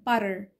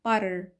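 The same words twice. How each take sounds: The two takes are said the same way.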